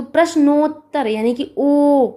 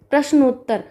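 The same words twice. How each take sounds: First: प्रश्नोत्तर with the ओ held long; drawn-out O sound. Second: Said in the usual way. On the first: Shown as a demonstration. Teacher pointing out the vowel to students, ओ in प्रश्नोत्तर drawn out. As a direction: stretch the ओ in प्रश्नोत्तर, then sound ओ alone, held. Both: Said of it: "यहाँ पर ओ का sound आ रहा है".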